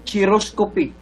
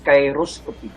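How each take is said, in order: First: The first syllable differs from the start of chiropractor. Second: The first syllable matches the start of chiropractor. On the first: The speaker calls it wrong. "this is not chiroscopy" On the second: The speaker calls it right. "That is pronounced correctly as chiroscopy"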